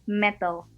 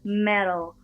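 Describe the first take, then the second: First: The middle T is hard, like an Indonesian T. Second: The middle T is soft, close to a D. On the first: "orang Indonesia itu biasanya kalau ngomong T-nya gitu tuh, ... lidahnya tuh agak gigit sedikit di antara dua gigi" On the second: "Tapi kalau misalnya aksen Amerika itu lidahnya harus di belakang gigi"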